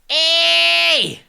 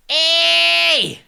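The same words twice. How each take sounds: First: It has pure, nastier twangy distortion. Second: It has pure, nastier twangy distortion.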